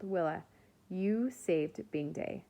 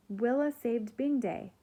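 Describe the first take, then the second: First: Said in the usual way. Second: Higher, louder announcement; loud proclamation. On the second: A narrator's reading. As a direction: proclaim it to the whole crowd. Nori announces it to everyone.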